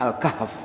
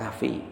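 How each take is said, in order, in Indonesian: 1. Kata ini berakhir pada f tanpa vokal. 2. Kata ini berakhir dengan vokal i tambahan di akhir. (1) "Al-kahf katanya" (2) "Saya cakap kahfi"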